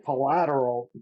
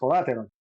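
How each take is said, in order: First: The word is pronounced slowly with every syllable clear. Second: The word is pronounced quickly with reduced syllables. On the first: "I can say collateral" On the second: "naturally going is going to come out, especially if I'm just talking about it uh, normally and without thinking about it"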